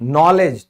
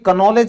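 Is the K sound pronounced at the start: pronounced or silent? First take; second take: silent; pronounced. First: The word starts with an N sound, no K. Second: The word starts with a K sound before N. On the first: The speaker calls it right. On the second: The speaker calls it wrong.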